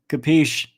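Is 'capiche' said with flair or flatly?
flatly. The word is said flatly, with no flair. The speaker calls it wrong. "You don't say capiche just like, you know, you're saying the"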